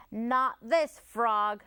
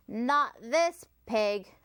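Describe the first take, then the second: First: Slow, firm, with "this" leaned on hard; a stubborn slow "Not this frog", this stressed. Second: Slow, firm, with "this" leaned on hard; stubborn slow stress on "this" in "Not this pig". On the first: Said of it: "little frog cried". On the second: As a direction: plant your feet on "this". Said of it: "Otis replied". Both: A narrator's reading.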